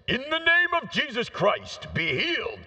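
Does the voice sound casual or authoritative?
authoritative. It is said in a commanding, authoritative voice.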